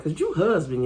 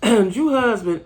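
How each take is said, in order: First: Said in the usual way. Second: "Drew husband" slowly and louder, each word leaned on; slow emphatic. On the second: Real, not acted. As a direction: drag out "Drew husband" with disapproval.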